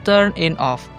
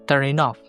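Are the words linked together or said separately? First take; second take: separately; linked. First: The words are said separately with breaks. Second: Final consonants run smoothly into the following vowels. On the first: "Itu tanpa tipe konsonan to vowel" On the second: "Kalau kalian pakai konsonan to vowel"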